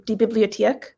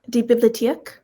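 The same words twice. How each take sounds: First: "Bibliothek" said slower, with a clearer O; slow "Bibliothek" down for the listener; careful, purer pronunciation of "Bibliothek". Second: "bibliotheek" run together quickly; quick, casual "bibliotheek"; said fast. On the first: Shown as a demonstration. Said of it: "Slow it down". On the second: Real, not acted. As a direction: say "bibliotheek" fast, middle vowel reduced to uh. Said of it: "I might be saying it fast".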